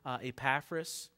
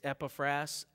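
First: The name is said in a common variant pronunciation. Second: The name is said in its standard pronunciation. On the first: Some people say it this way. The speaker calls it wrong. "I know some people pronounce it Epaphras" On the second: This is how the name is properly said. The speaker calls it right. "but it's Epaphras"

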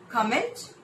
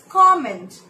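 First: The stress is on the second syllable. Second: The stress is on the first syllable. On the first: The speaker calls it wrong. "That's not right" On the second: The speaker calls it right. "It's comment. Comment with two syllables"

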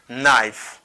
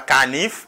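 First: The word begins with an n sound. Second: The word begins with a k sound. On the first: The speaker calls it right. "c'est knife" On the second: The speaker calls it wrong. "Ni pas canif, pas dit canif encore"

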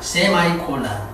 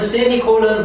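First: The second syllable sounds like 'my'. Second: The second syllable sounds like 'me'. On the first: "어떤 미국어는 세마이콜론이라고 합니다" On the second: "원어민은 세미콜론 그럽니다"

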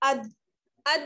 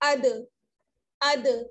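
First: The final d is cut off abruptly with no echo. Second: The final d bounces with a slight echoing release. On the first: The speaker calls it wrong. "आवाज बंद नहीं होगी, जैसे अद अद नहीं" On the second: The speaker calls it right. "आवाज लौट कर वापस आएगी"

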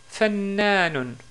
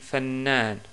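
First: The word ends with a final '-un' ending. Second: The word stops without the final '-un' ending.

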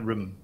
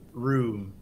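First: The word is said quickly with a short vowel. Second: The word is said slowly with a long vowel. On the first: The speaker calls it wrong. "Don't say room so fast" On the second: The speaker calls it right. "Like, ooh, room"

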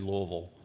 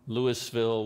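First: The syllables are reduced and run together. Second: Each syllable of the name is said out fully. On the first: "we make it as easy as possible, moving as few muscles in our faces as possible, and we just say Louisville" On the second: "or Louisville"

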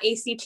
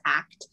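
First: It is spelled out as three separate letters. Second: It is said as the single word act. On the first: The speaker calls it wrong. "it's not ACT" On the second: The speaker calls it right. "we say it as if it is a word"

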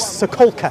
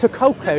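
First: The name is read as English spelling suggests. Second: The name is said with a Polish-like pronunciation. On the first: The speaker calls it wrong. "I pronounce it as it looks" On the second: The speaker calls it right. "But it's Sokolka, is something like that?"

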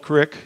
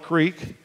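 First: It is said with a short i vowel. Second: It is said with a long ee vowel.

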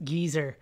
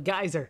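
First: Geyser is pronounced the British way. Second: Geyser is pronounced the American way. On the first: "they pronounce it geyser over in England" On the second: "We call it a geyser"

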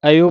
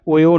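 First: The word begins with an 'a' vowel. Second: The word begins with an 'o' vowel. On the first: The speaker calls it right. "ਅਯੋ ਪੜ੍ਹਨਾ ਹੈ" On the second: The speaker calls it wrong. "ਓਯੋ ਨਹੀਂ ਪੈਣਾ"

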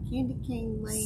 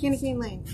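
First: The phrase is said at a normal, careful pace. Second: The phrase is said very fast.

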